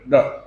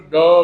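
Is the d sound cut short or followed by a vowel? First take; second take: cut short; with vowel. First: The d is said lightly with no vowel. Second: The d is said with a full following vowel. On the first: The speaker calls it right. "एक द एकदम हल्का सा बोलते हैं" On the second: The speaker calls it wrong. "एक तो द बोलते हैं"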